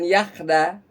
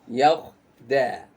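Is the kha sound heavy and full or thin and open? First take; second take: thin; heavy. First: The kha is thin, with the mouth opened wide. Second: The kha is heavy, with a raised tongue. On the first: The speaker calls it wrong. "Bukan yakhda" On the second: The speaker calls it right. "tapi yakhda... Karena ini adalah huruf kha isti'la"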